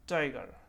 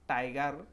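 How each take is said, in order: First: The t sounds like a native English t. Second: The t sounds like a non-native English t. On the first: The speaker calls it right. "It is tiger, tiger, right?" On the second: The speaker calls it wrong. "It is not tiger, because non-native English speaker uh, sometimes produce this sound in this way mistakenly"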